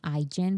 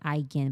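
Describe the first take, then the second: First: The second syllable sounds like 'jin'. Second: The second syllable sounds like 'gen'. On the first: It echoes the parent brand's name. "I like saying Aigen because Jin" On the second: This is the official pronunciation. "I hate saying Aigen, but I guess is pronounced that way"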